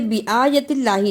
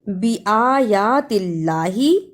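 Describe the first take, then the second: First: The vowel after 'y' is cut short. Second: The vowel after 'y' is drawn out long. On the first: The speaker calls it wrong. "इसे बिआयतिल्लाही नहीं पढ़ना" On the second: The speaker calls it right. "या के ऊपर खड़ी जबर है, इसको भी अदा करना है"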